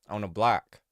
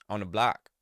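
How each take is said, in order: Both takes have the same delivery.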